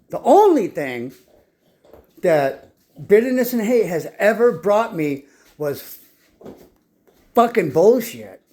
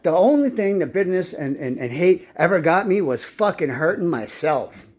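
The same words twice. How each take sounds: First: Slow and louder, leaning hard on "only thing" and "fucking bullshit"; slowing down to hammer "only" home; emphatic repeat. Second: Said in the usual way. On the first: Shown as a demonstration. Repeating it to his audience, slow and emphatic. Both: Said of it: "Let me say that again".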